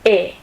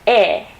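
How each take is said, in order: First: The vowel is closed, the mouth narrower. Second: The vowel is open, the mouth wider. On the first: "la boca se cierra más" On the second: "Que es una E pero más abierta"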